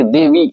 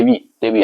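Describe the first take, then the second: First: देवी with a drawn-out long ई, sung high; wrong long vowel. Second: देवी with a quick short vi sound; short vowel. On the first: Teacher showing pupils the wrong long-vowel देवी. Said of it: "देवी नहीं बोल रहे हैं". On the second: Teacher showing pupils the correct short-vowel देवी. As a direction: clip the ending of देवी short, the right way. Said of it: "क्या बोलते हैं?". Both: Shown as a demonstration.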